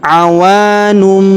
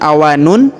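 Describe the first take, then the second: First: The final sound is a held, nasal m. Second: The final sound is a plain n. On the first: The speaker calls it right. "tapi awanum. Ditahan dan didengungkan dua sampai tiga harokat" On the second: The speaker calls it wrong. "bukan awanun"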